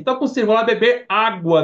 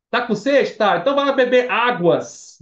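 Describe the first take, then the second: First: High, loud casual "água"; acted everyday remark ending on "água"; everyday singular. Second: High, loud lead-up to "águas"; acted question, then exaggerated "águas"; mock unnatural plural. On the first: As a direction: say "água" with no final s. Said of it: "A gente fala assim". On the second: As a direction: draw out "águas" with its final s. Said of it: "Você não fala assim". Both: Shown as a demonstration.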